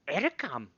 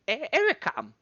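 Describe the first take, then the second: First: It is said plainly and confidently. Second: It is said sheepishly with a hesitant stutter.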